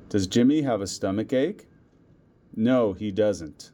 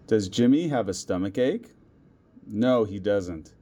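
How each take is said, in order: Both takes have the same delivery.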